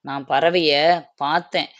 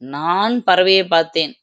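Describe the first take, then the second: First: The stress is on the last word. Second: The stress is on the first word. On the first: The bird was seen, not heard. "பார்த்தேன் அப்படிங்கிற இடத்துக்கு நம்ம அழுத்தம் குடுக்குறோம்" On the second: It was me who saw it, not you. "நான் என்னும் சொல்லுக்கு அழுத்தம் கொடுத்தால்"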